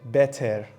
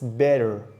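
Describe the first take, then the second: First: The middle consonant is a crisp, sharp T. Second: The middle consonant is a soft D-like tap. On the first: The speaker calls it wrong. "a Native American speaker does not say better" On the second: The speaker calls it right. "It's better, like water"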